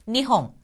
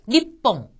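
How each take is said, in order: First: The middle consonant is a soft h. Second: The middle consonant is a hard doubled p.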